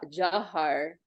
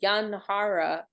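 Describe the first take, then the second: First: It starts with a J sound, no n. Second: It starts with a Y sound and nasal n. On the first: This is how the Bengalis say it. The speaker calls it right. "the Bengali are saying Jah, the J, Jah, Jahar" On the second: This is how the American devotees say it. The speaker calls it wrong. "American devotees saying Yanhara"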